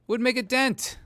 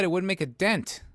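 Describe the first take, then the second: First: Wouldn't make a dent repeated much higher with stress on make; emphatic repeat. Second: Said in the usual way. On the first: Shown as a demonstration. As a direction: hammer it home on the repeat.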